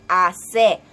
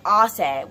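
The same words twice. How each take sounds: First: "hace" slow, loud on the "se"; accented final syllable. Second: "hace" in flat English sounds; unaccented. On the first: Teacher showing the accent, "hace" hit on "se". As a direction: stretch and punch the "se" in "hace". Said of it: "we got that se". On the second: Teacher showing what not to say, unaccented "hace". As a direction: say "hace" with no stress on the last syllable. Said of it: "we don't just say". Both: Shown as a demonstration.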